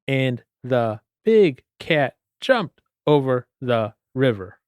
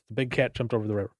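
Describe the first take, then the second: First: It is read slowly, word by word. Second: It is read quickly and smoothly.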